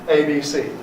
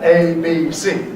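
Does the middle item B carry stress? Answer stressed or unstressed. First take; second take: unstressed; stressed. First: The middle item loses its accent; outer ones keep it. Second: Each of the three items carries its own accent.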